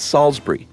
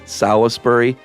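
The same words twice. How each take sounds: First: It is said with a British pronunciation. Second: It is said with an American pronunciation. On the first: The speaker calls it right. "it's Salisbury. ... words actually in the U K vernacular" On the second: The speaker calls it wrong.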